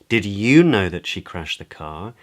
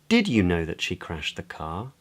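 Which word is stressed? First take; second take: you; Did. First: The word "you" carries the main stress. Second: The word "did" carries the main stress. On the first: It accusingly asks whether this listener knew. "Questions in a sort of accusatory way as to whether the other person knew" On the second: It asks whether the listener knew of the event at all. "Questions whether the other person knew about the event at all"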